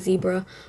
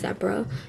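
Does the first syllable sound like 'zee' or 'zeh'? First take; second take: zee; zeh. First: The first syllable sounds like 'zee'. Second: The first syllable sounds like 'zeh'.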